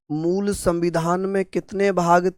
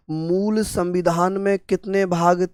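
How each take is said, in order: Both takes have the same delivery.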